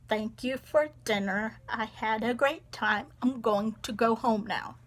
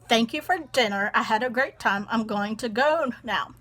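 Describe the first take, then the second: First: It is said calmly and slowly. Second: It is said in an annoyed tone.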